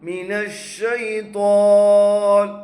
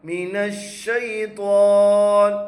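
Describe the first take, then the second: Both takes have the same delivery.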